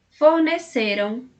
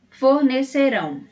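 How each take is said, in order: First: "Forneceram" slowly, stressed on CE, weak -ram; unstressed final -am. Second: "fornecerão" stressed on final RÃO. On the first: Teacher comparing past with future, stress on CE in "Forneceram". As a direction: lean on CE and keep -ram light in "Forneceram". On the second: Teacher comparing future with past, stress on final RÃO in "fornecerão". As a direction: land firmly on RÃO in "fornecerão". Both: Shown as a demonstration. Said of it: "Percebeu a diferença no som do final".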